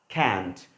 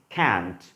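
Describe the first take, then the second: Both takes have the same delivery.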